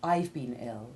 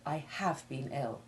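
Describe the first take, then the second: First: The verb is contracted onto the pronoun. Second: The verb is stressed with a full vowel. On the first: This is the ordinary conversational way. "you would more often say" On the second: The illness was especially severe. "put special stress on the severity of the illness"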